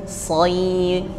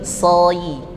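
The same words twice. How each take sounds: Both takes have the same delivery.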